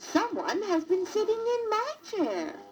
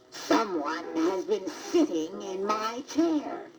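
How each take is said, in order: First: It is said in a medium, middle-sized voice. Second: It is growled in a deep, big voice.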